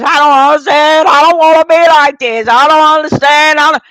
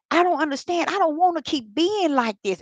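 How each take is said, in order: First: Much louder, crying out at the altar; loud wailing. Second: A touch of retold distress, higher; mildly complaining to the Lord, voice lifted; pleading complaint. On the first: Retold or imitated. Retelling crying out to God at the altar, loud and distraught. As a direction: wail it out, beside herself. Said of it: "I was cutting up". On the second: Recalling telling the Lord she can't stop, mild pleading. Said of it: "I was saying it just like that".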